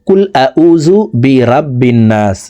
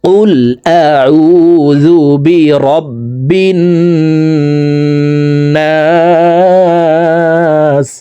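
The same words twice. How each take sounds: First: The Arabic sounds are articulated loosely. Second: The Arabic sounds are articulated carefully. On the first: The speaker calls it wrong. "আমরা অনেকে এইভাবে অশুদ্ধ পড়ি" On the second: The speaker calls it right. "শুদ্ধ করে শিখতে হবে"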